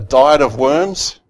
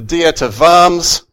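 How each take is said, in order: First: Worms is said like the English word. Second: Worms is said with a German-style pronunciation. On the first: It sounds like eating a meal of worms. The speaker calls it wrong. "I first saw this phrase and I thought" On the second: It names an assembly held in a German town. The speaker calls it right. "That's how you, I think, pronounce it in a bad Australian accent with German on it"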